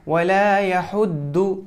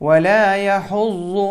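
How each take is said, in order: First: The consonant is pronounced as a plain D. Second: The consonant is pronounced as a heavy emphatic sound. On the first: The speaker calls it wrong. "ज़ाद को बहुत सारे लोग दाल की आवाज़ से पढ़ते हैं जैसे पढ़ेंगे ... ये गलत है" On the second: The speaker calls it right. "ज़ाद की आवाज़ मोटी होती है"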